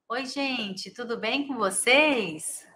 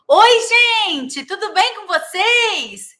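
First: It is spoken at a normal, soft volume. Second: It is spoken loudly, with effort. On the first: "É uma coisa" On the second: "Eu tenho que fazer uma força"

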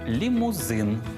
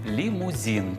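First: The last syllable has a Ukrainian 'zyn' sound. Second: The last syllable has a Russian-style 'zin' sound. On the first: The speaker calls it right. "після приголосних з цієї фрази вживаємо «и»" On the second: The speaker calls it wrong. "коли на українські слова накладають російську вимову"

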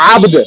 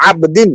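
First: The word ends abruptly on a 'd' sound. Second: The word ends with a full 'din' syllable. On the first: This is the form used when pausing. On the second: This is the full form without a pause.

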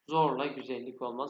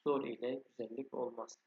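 First: The word ile is contracted into zorla. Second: The word ile is said in full. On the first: This is the everyday spoken form. "Zorla güzellik olmaz ama buraya ile diye yazmış" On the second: This follows the written text. "buraya ile diye yazmış"

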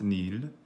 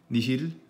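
First: The word is one long syllable without h. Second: The word has two syllables with an h.

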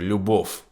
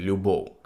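First: The final consonant sounds voiceless, like f. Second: The final consonant sounds voiced, like v. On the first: The speaker calls it wrong. "вони всі фекають ... як там хтось каже «любов»" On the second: The speaker calls it right. "Треба казати «любов»"

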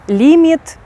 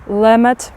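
First: The first vowel is a tense, high ee-like sound. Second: The first vowel is a short, relaxed i sound. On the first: The speaker calls it wrong. "наші українці дуже часто вимовляють як І" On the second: The speaker calls it right. "А насправді як ці слова будуть вимовлятися?"

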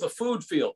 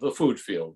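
First: It is said with weight and emphasis. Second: It is said casually, as a throwaway mention. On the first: The surroundings supply the key information. The speaker calls it right. "I want to say it in a different tone of voice" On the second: The surroundings are mere background. The speaker calls it wrong. "you know"

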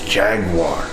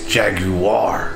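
First: The word ends with a plain 'war' sound. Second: The middle 'you' syllable is strongly emphasized. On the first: The speaker calls it right. "It's Jaguar" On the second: The speaker calls it wrong. "you're putting a lot of emphasis on that. You!"

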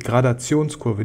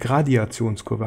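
First: It is said without an extra vowel after Grad. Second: It is said with an extra ee after Grad. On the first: The speaker calls it right. "die Gradationskurve" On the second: The speaker calls it wrong. "nicht die Gradiationskurve. Habe ich ein paar Mal falsch gesagt"

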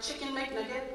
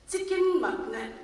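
First: It is said in a plain, ordinary way. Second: It is said in an imitated, altered pronunciation.

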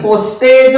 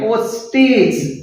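First: The last vowel sounds like 'ay' in day. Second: The last vowel sounds like 'ee' in see. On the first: The speaker calls it wrong. "पोस्टेज म्हणत नाही" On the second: The speaker calls it right. "ईचा उच्चार होतो"

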